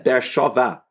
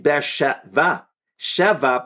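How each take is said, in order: First: The second word is said with an 'o' vowel. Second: The second word is said with an 'e' vowel. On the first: The name refers to the oath that was sworn. "the proper pronunciation of that phrase there is Ber Shovah" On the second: The name refers to the seventh well. "Here, it's actually Ber Sheva"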